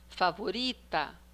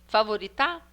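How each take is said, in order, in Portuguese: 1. A tônica está na penúltima sílaba. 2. A tônica está na última sílaba. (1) "depois a penúltima" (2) "a última"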